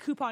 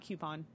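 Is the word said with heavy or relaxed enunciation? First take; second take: relaxed; heavy. First: The word is said with relaxed, ordinary articulation. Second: The word is said with heavy, careful articulation. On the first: The speaker calls it right. "I say coupon" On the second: The speaker calls it wrong. "not coupon. That one sounds weird to me. It's too much. Too much enunciation"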